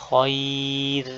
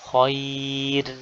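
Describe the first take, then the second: No difference in how they are said.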